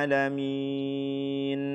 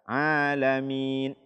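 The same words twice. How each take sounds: First: The final n has an overlong nasal hum. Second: The final n has no nasal hum. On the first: "berlebihan ... Ini juga tidak dibenarkan"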